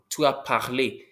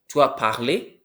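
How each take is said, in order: First: The voice falls at the end. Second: The voice rises at the end. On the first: It states a fact. "You spoke" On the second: It asks a question. "Did you speak?"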